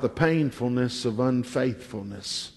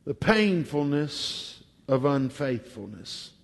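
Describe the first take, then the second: First: Said in the usual way. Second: "painfulness" stressed, the phrase repeated softer and slower; slow emphatic repeat. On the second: Shown as a demonstration. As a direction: lean on "painfulness", drop the voice. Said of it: "I want to talk about the painfulness".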